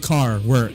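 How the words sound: It is said in a southwestern English accent. "And I say car, work"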